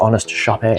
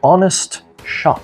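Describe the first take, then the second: First: The word ends with an added 'ay' sound. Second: The word ends in a plain 'shop' sound.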